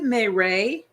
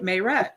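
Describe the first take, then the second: First: The name is said in a French style. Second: The name is said in a plain style. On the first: "is it Mayray? Like, is that French?" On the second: "we're saying her name right"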